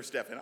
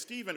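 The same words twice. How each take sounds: First: "Stephen" said as STEF-ən; Stefan pronunciation. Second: "Stephen" said as STEE-vən; Steven pronunciation. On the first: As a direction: say "Stephen" with a short e and an f sound. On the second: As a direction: say "Stephen" with a long ee and a v sound. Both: Shown as a demonstration. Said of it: "whether it's Stephen or Stephen".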